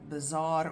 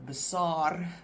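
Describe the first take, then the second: First: The word is said with a z sound. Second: The word is said without a z sound. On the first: This is the English way of saying it. "with the Z in English" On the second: This is the Afrikaans way of saying it. "if you pronounce it correctly in Afrikaans"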